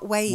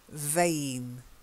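First: The word starts with a rounded W sound. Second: The word starts with a buzzing V sound. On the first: The speaker calls it wrong. "Not Wayne" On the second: The speaker calls it right. "You've got to get the V sound"

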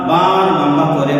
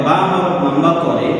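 The two takes are said the same way.

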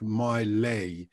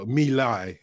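First: The name sounds like 'my lay'. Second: The name sounds like 'me lie'. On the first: The speaker calls it wrong. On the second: The speaker calls it right.

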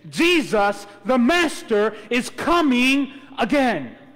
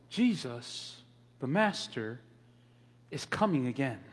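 First: It is said forcefully, with strong conviction. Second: It is said calmly, without special force.

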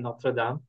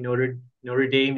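First: The name is pronounced with a French sound. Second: The name is pronounced with an English sound. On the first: This is how the name is said in French. "instead of Notre Dame" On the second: This is how the university's name is usually said. "keep saying Notre Dame instead"

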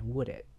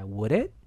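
First: The voice falls at the end. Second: The voice rises at the end.

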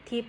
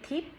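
First: The syllable is said with a mid tone. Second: The syllable is said with a high tone. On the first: "สามัญ" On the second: "เสียงตรีค่ะ"

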